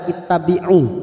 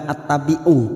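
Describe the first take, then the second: First: The word begins with an i vowel. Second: The word begins with an a vowel. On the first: The speaker calls it right. "Mengapa dibaca ittabi'u?" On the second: The speaker calls it wrong. "Kenapa bukan attabi'u"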